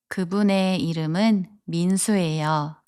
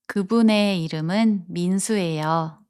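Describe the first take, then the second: No difference in how they are said.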